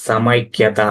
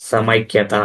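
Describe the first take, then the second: Both takes have the same delivery.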